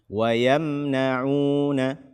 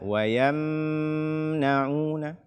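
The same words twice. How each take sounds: First: The m sound is kept short. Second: The m sound is held long. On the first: The speaker calls it right. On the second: The speaker calls it wrong.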